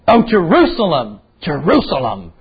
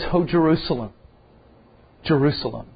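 First: It is said in an angry, scolding tone. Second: It is said in a compassionate, pitying tone. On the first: The speaker is rebuking and angry. "you would think he was scolding and he was angry" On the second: The speaker feels pity and brokenness. "there's a sense of compassion, there's a sense of pity"

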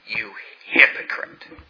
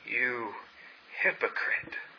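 First: The phrase is shouted loudly. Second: The phrase is said calmly and quietly. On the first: "did he shout" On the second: "with this calm demeanor that would cut straight to the heart"

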